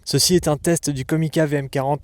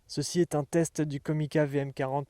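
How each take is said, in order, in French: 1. Les hautes fréquences sont accentuées. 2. L'audio est enregistré en stéréo. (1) "en mode High Frequency Boost" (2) "en mode stéréo"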